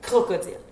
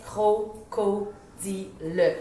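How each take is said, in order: First: CROCODILE run together as one smooth word; "crocodile" read quickly in a single stroke. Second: CRO-CO-DI-LE chopped into four slow, separate syllables; "cro-co-di-le" read out slowly like a beginning reader decoding. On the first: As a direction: say "crocodile" straight through, no breaks between syllables. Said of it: "vite, d'un trait". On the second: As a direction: sound out "cro-co-di-le" haltingly, one syllable at a time. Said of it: "lu de manière saccadée". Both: Shown as a demonstration.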